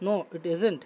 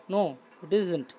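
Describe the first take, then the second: First: Said in the usual way. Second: Very slow, drawn-out answer for the class; slow teacher's dictation voice; slow model reading. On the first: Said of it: "teacher repeats with translation". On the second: Shown as a demonstration. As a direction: spell the reply out slowly. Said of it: "teacher reads model answer".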